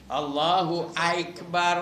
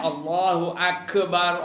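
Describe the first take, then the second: First: The first vowel of Akbar glides into 'aik'. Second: The k in Akbar is bounced with echo. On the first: "Apa yang aik aik tu?"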